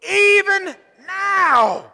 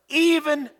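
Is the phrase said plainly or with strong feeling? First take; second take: strong feeling; plainly. First: The phrase is said with strong, heartfelt feeling. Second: The phrase is said plainly, with little feeling. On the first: "Say it with a little bit more feeling" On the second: "Say it one more time"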